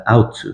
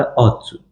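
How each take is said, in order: First: "ought to" as a learner's British accent demo; British-style "ought to", demonstrated for students; British pronunciation. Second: "ought to" in an American accent, with one open vowel; American-style "ought to", demonstrated for students; American pronunciation. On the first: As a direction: say "ought to" in attempted British, opening close to "out". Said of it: "لهجهٔ انگلیسی یا بریتیش". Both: Shown as a demonstration.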